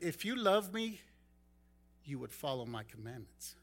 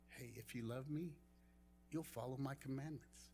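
First: It sounds stern and accusing. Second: It sounds gentle and warm.

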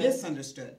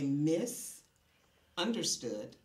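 First: It is said as one word. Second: There is a pause after "mis".

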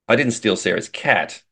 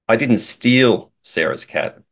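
First: The word "cat" is stressed. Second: The word "steal" is stressed. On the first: The speaker took something else from her. "implies that I stole something from her, but it wasn't her cat" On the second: The speaker got the cat some other way. "implies that maybe I borrowed it or she gave it to me"

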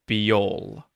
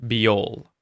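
The two takes are said the same way.

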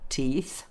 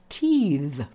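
First: The final th is voiceless, without vibration. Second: The final th is voiced, with vibration. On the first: It is the noun for the body parts. "end of the word for voiceless would be mouth, teeth" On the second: It is the verb meaning to grow teeth. "the verbs often have the V ... teeth, meaning to grow teeth"

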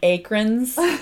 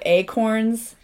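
First: It is said with the r before the o. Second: It is said with the standard a-corn sounds. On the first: "they call them acrons" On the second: "instead of acorns"

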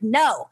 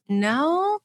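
First: A forceful, firm no said as a statement. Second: A hesitant no that sounds like a question. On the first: The speaker firmly refuses with confidence. "shot out a no that was empowering" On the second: The speaker refuses uncertainly, almost asking permission. "a no that sounds more like a question than a statement"

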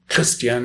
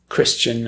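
First: The name is pronounced the German way. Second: The name is pronounced the English way.

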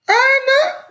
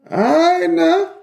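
First: It sounds impressed, like acknowledging someone approvingly. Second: It sounds like a cautioning warning to slow down.

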